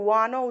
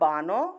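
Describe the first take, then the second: First: The word begins with a w sound. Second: The word begins with a b sound. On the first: The letter is read as the semivowel ba. "এটা যদি অন্তস্থ ব হয় তাহলে আমি ওয়ানও উচ্চারণ করব" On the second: The letter is read as the stop ba. "আর যদি এটা বর্গীয় ব হয় তাহলে আমরা বানও উচ্চারণ করব"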